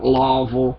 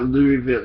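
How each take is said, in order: First: The first syllable sounds like 'law'. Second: The first syllable sounds like 'loo'. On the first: It is how locals say it. The speaker calls it right. "It's Lawville" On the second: It is the elegant outsider way. The speaker calls it wrong. "It's not Louisville"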